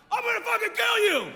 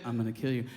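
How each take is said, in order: First: High-pitched mock yell; drunk jock threat. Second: Very low, quiet, level threat; voice of death. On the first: Drunk jock jumping out at someone, mock-furious yell. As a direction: holler it like a blustering drunk jock. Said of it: "some dumb drunk jock". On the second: Retold or imitated. Stranger behind you at night, low calm menace. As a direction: say it deep and dead calm. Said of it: "That's the voice of death".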